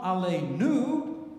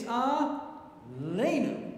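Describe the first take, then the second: First: "Aleinu" drawn out, landing on NU; stress on final syllable. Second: "Aleinu" very slowly, LEI stressed and high; stress on middle syllable. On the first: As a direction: wrongly hit the last syllable of "Aleinu". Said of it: "It's not Aleinu". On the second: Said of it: "emphasis is on any other syllable". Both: Shown as a demonstration.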